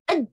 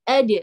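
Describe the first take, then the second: First: The final d is held and stopped abruptly. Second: The final d is released with a slight bounce. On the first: The speaker calls it wrong. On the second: The speaker calls it right. "tapi ad"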